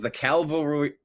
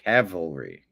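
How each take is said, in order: First: An L sound comes before the V. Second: The L sound comes after the V. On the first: The speaker calls it wrong. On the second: The speaker calls it right.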